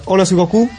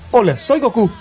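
First: It is said in the actor's own natural voice. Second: It is said in Goku's character voice.

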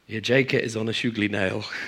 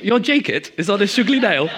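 First: It is said in a plain, everyday accent. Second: It is said in an exaggerated posh accent.

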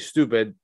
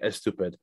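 First: It is said plainly, without an added vowel. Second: It has a Persian-accent vowel before the s.

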